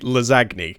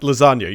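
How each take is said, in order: First: It is pronounced letter by letter as spelled. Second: It is pronounced the usual, standard way. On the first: The speaker calls it wrong. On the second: The speaker calls it right.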